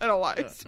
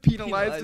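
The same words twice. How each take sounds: First: The first syllable sounds like 'pen'. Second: The first syllable sounds like 'pee', as in penis. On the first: The speaker calls it right. "instead of penalized" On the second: The speaker calls it wrong. "He says penalized"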